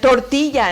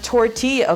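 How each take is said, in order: First: It is pronounced the Spanish way. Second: It is pronounced the English way. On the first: "and tortilla" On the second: "instead of tortilla"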